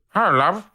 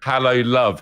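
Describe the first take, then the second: First: High, garbled dog imitation of words; doggy mock-gentleman hello, pitched up; dog as British gentleman. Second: Said in the usual way. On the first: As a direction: bark out the greeting like a talking dog. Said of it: "He goes". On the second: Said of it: "it sounded like he said".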